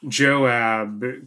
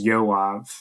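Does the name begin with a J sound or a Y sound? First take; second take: J sound; Y sound. First: The name begins with a J sound. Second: The name begins with a Y sound. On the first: "the B on the end of Joab" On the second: "You could also pronounce that name as Yoav"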